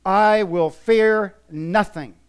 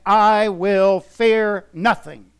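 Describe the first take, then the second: First: Slow and loud, leaning on fear; emphatic. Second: Slow, loud and emphatic, each word weighted. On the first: Acted. Preacher repeating David's vow, slow emphatic stress. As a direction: repeat it with firm weight, slowly. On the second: Retold or imitated. Preacher to the congregation, slow emphatic declaration. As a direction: declare it with full conviction, slowly.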